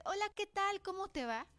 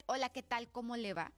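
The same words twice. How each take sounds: First: High, lilting, amiable hello; friendly greeting. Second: Curt, annoyed hello with a firm first word; firm, displeased greeting, pitch held down; angry greeting. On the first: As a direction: greet them like a kind, welcoming person. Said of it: "pensarías que soy una persona amable". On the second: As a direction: greet them as if cross with them. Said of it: "pensaría que estoy enojada". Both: Shown as a demonstration.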